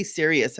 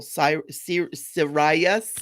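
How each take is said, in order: First: Said in the usual way. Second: "Sirius" said as sih-RYE-us, stress on RYE; hesitant attempt at "Sirius" as si-RYE-us; new pronunciation. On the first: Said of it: "whenever I say Sirius". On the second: Shown as a demonstration. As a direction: try out "Sirius" with a long "eye" in the middle, feeling for it. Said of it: "trying to say it the new way".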